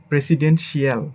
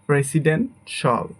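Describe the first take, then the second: First: The ending is said as two syllables, shee-al. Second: The ending is said as one syllable, shal. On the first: The speaker calls it wrong. "এটাকে আমরা বলি" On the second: The speaker calls it right. "But এটা হবে আমাদের"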